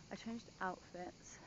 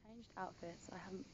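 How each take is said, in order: First: Said in the usual way. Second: Hushed, half-whispered vlog update; whispering. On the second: Real, not acted. Vlogger updating viewers on her outfit, whispering. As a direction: keep your voice down, nearly whispering. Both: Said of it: "I don't know why I'm whispering".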